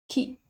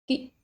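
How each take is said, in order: First: The vowel is short and said quickly. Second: The same.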